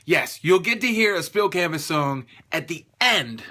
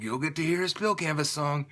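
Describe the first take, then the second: First: Punchy, deliberately excited announcement; emphatic, pumped-up promo delivery; hyped-up excitement. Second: Understated, deadpan self-mockery; mock unenthusiastic. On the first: Shown as a demonstration. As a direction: redo it with real hype. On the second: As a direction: mimic yourself failing to sound excited. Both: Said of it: "I sound so excited".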